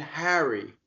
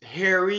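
First: Harry with a flat a as in hat; Harry with a Midwestern flat vowel. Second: Harry with an open ah vowel, hah-ree; Harry with a broad East Coast a. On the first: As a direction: say Harry like hairy, Midwest style. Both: Shown as a demonstration. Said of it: "a difference in pronunciation".

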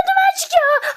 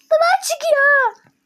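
First: High, loud panicked cry of duman; alarmed shout. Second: Much higher, louder, slow stretched yell of duman; drawn-out shout. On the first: Seeing smoke rise from the pan, alarmed shout. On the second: Repeating the smoke warning to her partner, slow drawn-out shout. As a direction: drag the warning out loud. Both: Real, not acted.

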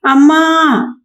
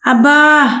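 First: Very high drawn-out cry; louder call. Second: High sudden yelp from the kitchen; sudden cry out. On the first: Wife calls her husband again from the kitchen, louder, high cry. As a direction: raise the voice, call out high and long. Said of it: "ఈసారి మరింత గొంతు పెంచి గట్టిగా". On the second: Wife cries out from the kitchen, high yelp. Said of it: "అని అరిచింది". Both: A narrator's reading.

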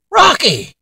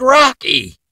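First: Sharp high call of the dog's name, louder. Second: Exasperated call. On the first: Dad at dinner calls out the dog under the table, high and loud. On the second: Dad scolds dog again. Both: Acted.

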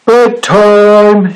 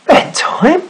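First: High, drawn-out storybook shout. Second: High-pitched questioning echo, rising sharply; startled question. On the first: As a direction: call out bedtime as the Snorg. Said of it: "shouted the Snorg". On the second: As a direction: query it in disbelief as the sailor. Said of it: "said the sailor". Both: A narrator's reading.

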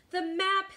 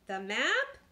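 First: High, loud pirate demand; urgent demand. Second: Questioning, rising echo; puzzled echo. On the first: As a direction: call out for it urgently. Captain urgently demands the map. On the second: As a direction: ask it back, at a loss. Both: A narrator's reading.

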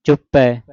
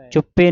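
First: ਚੁੱਪੈ with an open ai ending; double-lavan ending. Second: ਚੁੱਪੇ with a short closed e; single-lan ending. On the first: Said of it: "ਚੁੱਪੈ ਦਲਾਵਾਂ ਦੇ ਨਾਲ". (ਚੁੱਪੈ ਦਲਾਵਾਂ ਨਾਲ) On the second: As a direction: end ਚੁੱਪੇ on a tight ay. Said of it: "ਨਹੀਂ ਕਹਿਣਾ". (ਚੁੱਪੇ ਇੱਕ ਲਾਂ ਨਾਲ) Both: Shown as a demonstration.

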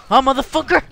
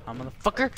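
First: High, loud challenging shout; shouted taunt. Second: Said in the usual way. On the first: Real, not acted. Player taunting his game opponent, shouted taunt. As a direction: yell the challenge in his face.

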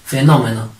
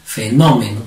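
First: Said in the usual way. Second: "Fenómeno" split before a strong NÓ; stress on -nó-. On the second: Shown as a demonstration. Teacher shows pupils the accent, stressing -nó- in "Fenómeno". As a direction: lean hard on the second syllable NÓ of "Fenómeno". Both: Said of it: "¿Cómo sería?".

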